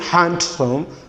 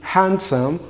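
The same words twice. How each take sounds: First: The D sound is clearly pronounced. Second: The D sound is left out. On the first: The speaker calls it wrong. "So we don't say handsome" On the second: The speaker calls it right. "rather we say handsome"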